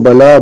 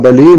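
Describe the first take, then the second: First: The l is followed by an a vowel. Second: The l is followed by an i vowel.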